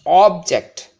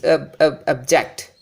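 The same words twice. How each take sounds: First: OBject, loud full OB then falling ject; stress on first syllable. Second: Barely touch the ob, then land on ject in object; obJECT, stressed on the second syllable; weak first syllable. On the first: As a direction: punch the front of object. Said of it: "more emphasis on the first syllable". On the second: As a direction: object with a light, reduced ob before JECT. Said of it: "the first syllable is almost given less importance". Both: Shown as a demonstration.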